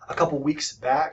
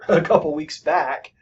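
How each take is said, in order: First: Weeks back is run together as one word. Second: Weeks and back are said as separate words. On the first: The speaker calls it wrong. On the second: The speaker calls it right.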